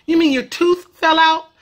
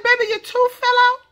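First: "tooth" ending in a careful TH; proper TH in tooth. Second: High-pitched question, "tooth" as "toof". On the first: Mom correcting child, "tooth" ending in TH. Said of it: "The proper way to say it". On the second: Mom answering five-year-old, high voice, "tooth" as "toof". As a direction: ask high, "tooth" ending in F. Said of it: "I said". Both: Retold or imitated.

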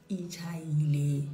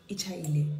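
First: Ichayile stretched out slowly. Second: Said in the usual way. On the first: Shown as a demonstration. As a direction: drag out Ichayile. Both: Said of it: "repeated slowly".

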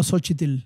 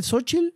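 First: Xochitl said as "sochitil", with an added i; "so-chi-til", three syllables; second pronunciation. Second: Xochitl said as "sochil", no i before the tl; "sochil" with a silent final vowel; first pronunciation. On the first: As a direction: Xochitl with an i before the final l. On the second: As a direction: Xochitl as two syllables. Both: Shown as a demonstration. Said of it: "se dice Xochitl o Xochitl".

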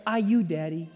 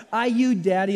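First: Put-on toddler voice. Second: Said in the usual way. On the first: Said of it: "And she'd go". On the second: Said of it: "is that not the best?".

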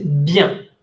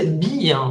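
First: Bien as one nasal syllable; poprawne bien. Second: "bien" split into two syllables, bi-an; wrong bien. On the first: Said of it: "uno dice bien". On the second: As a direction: break "bien" in two, stretching the i. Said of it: "Uno no dice bien". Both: Shown as a demonstration.

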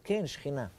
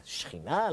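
First: Said in the usual way. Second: Rising, disbelieving echo of the word שכינה?; incredulous question. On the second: Retold or imitated. Rabbi echoing a surprising teaching, incredulous rise. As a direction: toss back שכינה? as if you can't believe it. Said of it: "אמר".

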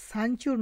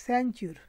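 First: সানচিউর with a plain open sa, marked as wrong; wrong pronunciation. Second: স্যানচিউর with a bent sya glide, like a jofola; correct pronunciation. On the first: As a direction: say সানচিউর with a flat sa sound. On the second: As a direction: give স্যানচিউর a curved sya at the start. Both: Shown as a demonstration. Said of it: "সানচিউর না কিন্তু স্যানচিউর".

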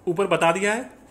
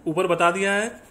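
The two takes are said the same way.

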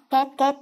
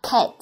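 First: Cat said like Vietnamese "két", unaspirated k, e vowel, clipped t; mock the usual Vietnamese cat, flat and cut short; cat in a Vietnamese accent; Vietnamese-style cat. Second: Cat with an aspirated k, open flat a and a released t; English cat, k with a puff of air; native cat. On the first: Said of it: "cách mà người Việt chúng ta hay đọc". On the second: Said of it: "Cách đọc chuẩn của người bản xứ sẽ là". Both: Shown as a demonstration.

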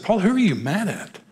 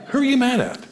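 First: Mildly exasperated, pitched-up question; retold confrontation, a touch incredulous; probing. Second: Very high, insistent demand; retold pestering, pitch soaring then falling; exasperated. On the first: Pastor confronting an angry counselee, probing. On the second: Pastor pressing a counselee who denies anger, exasperated.

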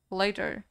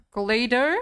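First: Said in the usual way. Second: Loud with rising end; sharp rise, as if doubting it; puzzled question. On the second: Real, not acted. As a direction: query the word in surprise. Queries word while reading quiz.

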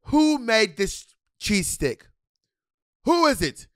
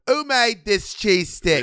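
First: Slow, higher mock-British chef demand; lightly voiced stern chef asking who cooked it; imitating Gordon Ramsay. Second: Slow, higher mock-British chef question; bad British accent. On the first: Imitating Gordon Ramsay demanding who made the cheese stick, slow and higher. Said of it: "He's like, he's like". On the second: Repeating the chef line for her cohost in a bad British accent, slow and higher. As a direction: ham up a Gordon Ramsay accent. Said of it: "Bitch, I don't know what accent you doing".

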